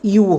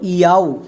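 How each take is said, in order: First: The vowel is a plain long oo: yoo. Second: The vowel glides from ah to oo: yow. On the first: The speaker calls it right. "এখানে আমাদের এর উচ্চারণটা ইউ হবে" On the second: The speaker calls it wrong. "এটা আমাদের একদমই ভুল উচ্চারণ"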